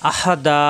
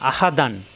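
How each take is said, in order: First: The word ends with a stretched long vowel. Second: The word ends with an n sound. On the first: The reading stops on this word. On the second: The reading continues without stopping.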